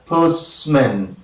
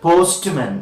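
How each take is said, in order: First: The t sound is dropped. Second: The t sound is pronounced. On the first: The speaker calls it right. "You only hear postman" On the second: The speaker calls it wrong. "You don't hear postman"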